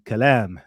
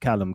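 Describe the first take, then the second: First: The name is said with an Arabic pronunciation. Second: The name is said with a British pronunciation. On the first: The speaker is an Arabic speaker. "my Arabic speakers will be Kalam" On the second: The speaker is from the UK audience. "my U K audience will say Callum"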